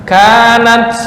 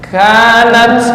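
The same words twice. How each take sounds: Both takes have the same delivery.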